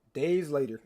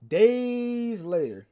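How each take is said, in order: First: Said in the usual way. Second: High, loud, hugely stretched time-skip; dramatic drawn-out. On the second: Shown as a demonstration. Storyteller announcing a time jump to chat, dramatically drawn out. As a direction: stretch DAYS out like a title card.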